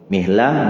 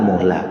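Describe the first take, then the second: First: The first vowel after m is i. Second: The first vowel after m is u. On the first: "wa kasriha, dan kasroh mimnya" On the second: "bidomil mim"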